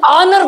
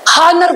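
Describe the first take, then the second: First: The word begins with a vowel sound. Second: The word begins with an h sound. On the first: It would take the article an. "जदि आनर पढुचे तल बसेबा आन" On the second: It would take the article a. "बहुत पिला को पढंती हानर, हानर पढिले बसेबा अ"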